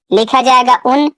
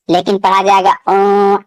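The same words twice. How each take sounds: First: Said in the usual way. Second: اوں with the n hidden in the nose, no closing n; teacher showing the hidden nasal noon; ikhfa nasalisation. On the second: Shown as a demonstration. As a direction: hum اوں through the nose. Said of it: "نون کی آواز کو ناک میں چھپا کر پڑھا جاتا ہے".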